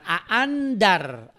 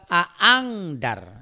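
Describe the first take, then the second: First: The n sound is pronounced clearly. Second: The n sound is turned into ng. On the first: "bukan aandar" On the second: "atau bukan juga aangdar"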